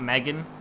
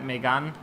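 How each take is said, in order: First: It is said like the English name Megan. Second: It is said with a French-style pronunciation. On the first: It sounds like a girl's name. The speaker calls it wrong. "that's a girl's name" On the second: It names the car model. The speaker calls it right. "I should probably say it like that"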